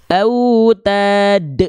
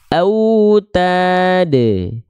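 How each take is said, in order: First: The final bounce is held and cut off abruptly. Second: The final bounce is released and fades out naturally. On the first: The speaker calls it wrong. "contoh pelafalan pantulan yang keliru" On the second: The speaker calls it right. "biarkan pantulannya berhenti dan mati dengan sendirinya"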